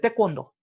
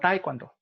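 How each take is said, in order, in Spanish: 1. La primera sílaba es un sonido 'teh' corto. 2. La primera sílaba es un sonido 'tay' deslizado. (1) "Se dice Te" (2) "Tae está mal dicho"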